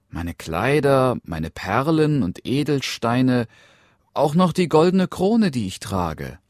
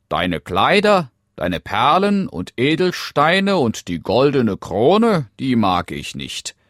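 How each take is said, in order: First: Lightly voiced, higher princess; eager princess. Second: Loud, high frog reeling off a list; dismissive frog. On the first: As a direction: offer treasures one by one as a princess. Princess eagerly lists her treasures. (eifrige Prinzessin, leicht erhöhte Stimme) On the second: Acted. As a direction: reject each treasure emphatically as the frog. Frog rejects the listed treasures. (abwehrender Frosch, laut und betont)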